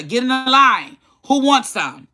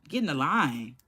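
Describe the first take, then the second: First: High, pushy called-out order; commanding father. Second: Soft, lowered retold order; low command. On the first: Retold or imitated. Dad offering beer to little kids, commanding. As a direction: act out dad rounding up the kids, pitched up. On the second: Dad ordering little kids to line up, low command. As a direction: repeat dad's order quietly, pitch dropped.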